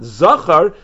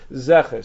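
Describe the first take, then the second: First: The word is said with 'ah' vowels. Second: The word is said with 'eh' vowels. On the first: The speaker calls it wrong. "it's definitely not Zachar" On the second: The speaker calls it right. "He actually read it"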